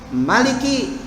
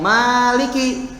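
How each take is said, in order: First: The first vowel is held short. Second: The first vowel is drawn out long. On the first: It means king. "dibacanya pendek" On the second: It means owner. "dibaca panjang"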